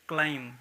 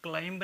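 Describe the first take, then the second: First: The word ends with no b sound. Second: The word ends with a pronounced b sound. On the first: The speaker calls it right. "इसको कहेंगे केवल क्लाइम" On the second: The speaker calls it wrong. "क्लाइंब नहीं पढ़ेंगे"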